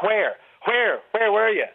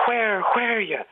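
First: Put-on Dublin accent. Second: Breathy, airy stage-Irish where were you; overly airy fake Irish. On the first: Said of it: "Dublin people tend to go like". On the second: Shown as a demonstration. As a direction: push too much air through a fake Irish accent. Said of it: "put too much air into it".

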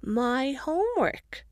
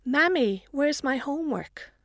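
First: Slow, high wobbling little voice; warbling child. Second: Put-on high little girl's question; a small girl asking anxiously; child voice. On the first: Acted. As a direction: draw the word out like a whining toddler. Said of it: "Sophie begins to warble". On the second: Little daughter calls out.

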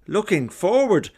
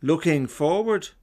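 First: Louder and higher, near exploding; louder, exasperated. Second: Said in the usual way. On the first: Retold or imitated. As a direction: push the voice up as if about to burst. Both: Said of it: "with increasing decibels each time".

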